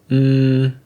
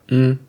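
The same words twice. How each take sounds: First: The hum is held a long time. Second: The hum is held very briefly. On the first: "and three" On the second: "lengths one"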